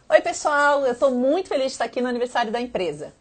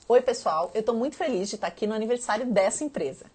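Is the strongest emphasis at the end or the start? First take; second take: start; end. First: The opening greeting is said with the most energy. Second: The final word 'empresa' is given the most emphasis. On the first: "Eu botei bastante animação, especialmente no começo" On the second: "Agora, empresa ficou um pouquinho mais enfatizado"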